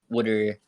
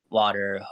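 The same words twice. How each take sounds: First: It is said in a local Delco accent. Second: It is said in a general American accent. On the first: She is around family she grew up with. "she'll slip into the uh, the less common" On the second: She is speaking the way she usually does. "most of the time it's"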